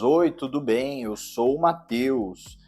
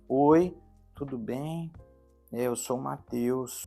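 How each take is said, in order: First: The voice is strong and projected. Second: The voice is weak and not projected.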